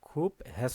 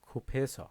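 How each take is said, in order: First: A separate h sound follows the b. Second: The b and h merge into aspirated ph. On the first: The speaker calls it wrong. "খুব হেস না" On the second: The speaker calls it right. "এই বিউপ এবং এই হিউত এটা মিলে ফিউপ হয়ে গেছে"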